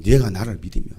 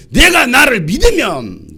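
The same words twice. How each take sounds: First: Low-pitched repeat; subdued echo. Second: Loud, high, slow cry; forceful proclamation. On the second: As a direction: proclaim it loudly, stretching it out. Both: Acted. Same words loud, then low.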